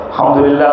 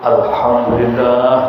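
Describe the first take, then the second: First: It is said quickly and hurriedly. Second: It is said slowly and calmly. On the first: The speaker calls it wrong. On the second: The speaker calls it right.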